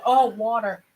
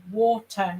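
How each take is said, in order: First: Put-on American-accented "wah-der", louder, as a realisation. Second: "Water" with a crisp t, British style; louder British "Water", spelling it out for someone; British pronunciation. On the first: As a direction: imitate an American cashier finally getting it. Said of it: "the American cashier person couldn't understand". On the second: Retold or imitated. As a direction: say "Water" as waw-tuh, with emphasis. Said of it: "the British guy saying water".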